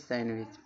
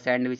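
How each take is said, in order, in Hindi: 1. बीच में "d" की आवाज़ छोड़ दी जाती है। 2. बीच में "d" की आवाज़ बोली जाती है। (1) "यन के बाद अगर डी आएगा तब भी डी का उच्चारण नहीं होगा" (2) "सैंडविच नहीं"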